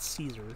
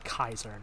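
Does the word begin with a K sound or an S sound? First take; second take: S sound; K sound. First: The word begins with a soft S sound. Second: The word begins with a hard K sound. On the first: This is the usual English way of saying it. "not Caesar" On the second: This is how the characters in the game say it. "They say the hard K"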